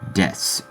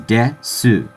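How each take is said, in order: First: The final vowel is dropped. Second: The final vowel is clearly pronounced. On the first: "it's almost always just left as des" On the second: "the verb of existence in Japanese is desu"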